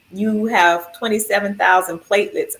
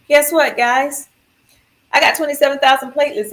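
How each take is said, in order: First: Said in the usual way. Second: Higher, fast, chirpy announcement; clueless cheer. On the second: Retold or imitated. Patient cheerfully tells the nurses her platelet count, excited and clueless. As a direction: announce it like good news, not knowing it's bad.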